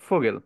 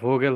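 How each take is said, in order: First: The word begins with an f sound. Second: The word begins with a v sound. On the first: The speaker calls it right. "ফয়ের মতো উচ্চারণ করতে হবে" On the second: The speaker calls it wrong. "এটা ভোগেল হবে না"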